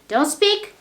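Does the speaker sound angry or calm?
angry. The voice sounds angry and harsh. The speaker is annoyed. "you can show you are angry"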